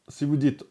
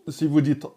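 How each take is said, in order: Both takes have the same delivery.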